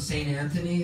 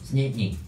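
First: Every syllable of the name is said clearly. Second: The name is squashed into a short blur.

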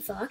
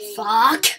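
First: It is muttered quietly and casually. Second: It is shouted loudly and intensely.

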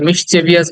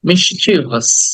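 First: The word has four syllables, ending in -vious. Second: The word has three syllables, ending in -vous. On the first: The speaker calls it wrong. "অনেকে মিসচেভিয়াস বলি" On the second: The speaker calls it right. "But চল হচ্ছে মিসচিভাস"

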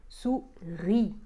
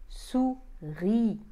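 No difference in how they are said.

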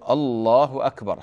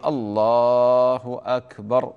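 First: The opening vowel of the first word is drawn out. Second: The opening vowel of the first word is short. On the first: It sounds like a question. The speaker calls it wrong. "لا يقول الله أكبر هكذا" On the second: It is a plain statement of God's greatness. The speaker calls it right. "هكذا الأذان الشرعي"

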